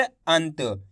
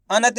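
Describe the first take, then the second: First: "अंत" with the न cut short into त; half n sound. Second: "अनत" with न as a whole syllable; full na, mistaken. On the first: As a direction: say "अंत" with no vowel after the nasal. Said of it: "आधा उच्चारण निकालना है". ("अंत" में न का आधा उच्चारण) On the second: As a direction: misread it as "अनत", with a vowel after न. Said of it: "ना का पूरा उच्चारण हो जाएगा". ("अनत" में न का पूरा उच्चारण) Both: Shown as a demonstration.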